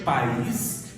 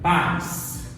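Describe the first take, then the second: First: The stress falls on the last syllable. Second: The stress falls on the first syllable. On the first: It means country. "país é a última sílaba forte" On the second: It means parents. "Qual que é a sílaba forte? A penúltima"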